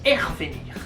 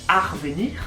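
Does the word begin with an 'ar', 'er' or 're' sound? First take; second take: er; ar. First: The word begins with an 'er' sound. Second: The word begins with an 'ar' sound. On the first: This is how it is said in the Nord. "Si tu es dans le Nord" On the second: This is how it is said in the Pas-de-Calais. "quand tu es dans le Pas-de-Calais"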